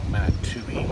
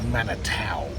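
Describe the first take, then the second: First: The name ends in an 'oo-ee' sound. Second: The name ends in an 'ow' sound. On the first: This is how the speaker's group habitually says it. The speaker calls it wrong. "not Manatui, as how we pronounce it" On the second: This is the town's own name. The speaker calls it right. "the name of the town is called Manatau"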